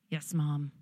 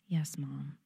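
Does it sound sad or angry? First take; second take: angry; sad. First: It is said in an angry voice. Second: It is said in a sad voice.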